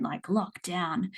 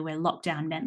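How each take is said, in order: First: Lockdown drawn out slowly and pressed; stress on lockdown. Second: Said in the usual way. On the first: Shown as a demonstration. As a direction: lean on lockdown like it means real lockdown.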